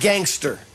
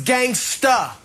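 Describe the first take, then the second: First: The final r sound is pronounced. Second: The final r sound is dropped. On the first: The speaker calls it wrong. "not gangster" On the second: The speaker calls it right. "it was gangsta"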